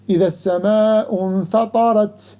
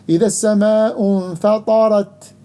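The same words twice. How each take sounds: First: The final t has a hissing, whistling quality. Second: The final t is crisp with no hiss. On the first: The speaker calls it wrong. "with characteristic of صفير, like some people do ... which is wrong" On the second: The speaker calls it right. "The right way"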